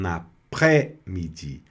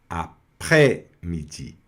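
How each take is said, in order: First: The s sound is left silent. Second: The s sound is left silent.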